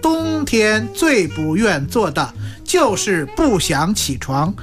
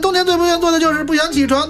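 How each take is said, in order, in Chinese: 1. 这句读得慢而清楚。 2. 这句读得快。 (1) "他得这样说" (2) "你得念快一点"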